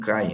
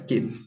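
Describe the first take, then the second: First: The word ends in an 'eye' diphthong. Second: The word ends in a plain 'eh' vowel. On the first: This follows the Erasmian pronunciation. "muito conhecido como cai, né? No, na pronúncia erasmiana" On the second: This follows the historical pronunciation. "Aqui eu utilizo o que, que é a pronúncia histórica"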